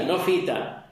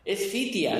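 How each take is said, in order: First: Fita, ending in plain "ta"; mispronounced Fita. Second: Fitia, ending in "tia", as a correction; correct pronunciation of Fitia. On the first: Showing a partner the slip, Fita with the i left out. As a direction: say Fita in two syllables, dropping the second i. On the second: Correcting a partner's Swedish station name, Fitia pronounced correctly. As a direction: say Fitia with an extra i before the final a. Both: Retold or imitated. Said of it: "tú lo estás diciendo mal".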